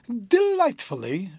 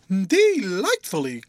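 First: High, slow and gushing on one word; delighted girl. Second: Louder, slow, drawn-out Delightfully; spontaneous delight. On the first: Rosa answers her fiancé. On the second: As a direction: let Delightfully burst out freely. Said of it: "in a quite spontaneous manner". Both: A narrator's reading.

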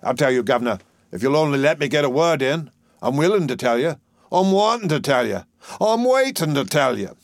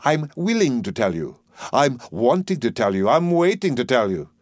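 First: Higher, lilting Cockney plea; musical, melancholy dustman. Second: Professor echoing a lilting phrase; mock the singsong rhetoric in careful diction; imitating the dustman's rhythm. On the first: A narrator's reading. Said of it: "Doolittle speaking very musically and melancholy". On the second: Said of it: "Observe the rhythm of his native wood notes wild".

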